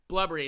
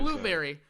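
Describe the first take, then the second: First: The first vowel is a short uh sound. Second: The first vowel is a long oo sound. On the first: The speaker calls it wrong. "She says blubbery" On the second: The speaker calls it right. "Not blueberry"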